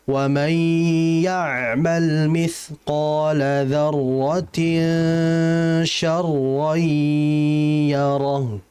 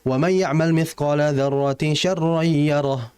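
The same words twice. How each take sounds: First: It is recited slowly, with sounds held longer. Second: It is recited fast, with sounds cut short.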